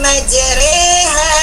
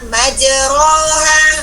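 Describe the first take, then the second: First: The vowel after r sounds like e. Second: The vowel after r sounds like o. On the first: The vowel is tilted in recitation. The speaker calls it right. "Dimiringkan dari o ke e" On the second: It is read exactly as written. The speaker calls it wrong. "Itu kita baca majroha"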